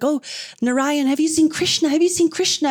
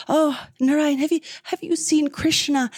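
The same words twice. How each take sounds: First: Lightly voiced higher, urgent asking; searching gopis. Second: Higher-pitched, lightly acted earnest question; really asking. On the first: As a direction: gopis calling out as they search, acted lightly. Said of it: "the gopis are running past looking for him". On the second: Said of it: "And she's really asking".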